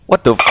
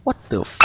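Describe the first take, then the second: First: Said in the usual way. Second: Whispered disbelief. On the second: Real, not acted. Whispered disbelief then repeated.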